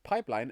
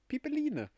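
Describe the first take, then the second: First: It is said with English vowel sounds. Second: It is said with German vowel sounds. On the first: The speaker calls it right. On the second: The speaker calls it wrong.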